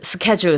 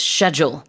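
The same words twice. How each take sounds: First: The word is said with the common non-British pronunciation. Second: The word is said with the British pronunciation. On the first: "everyone says schedule" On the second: "There's a different pronunciation for the word schedule in the U K"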